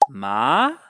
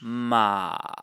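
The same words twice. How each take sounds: First: The pitch rises from low to high. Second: The pitch dips down, then rises slightly. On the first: "the rising or second tone" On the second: "This is the dipping tone"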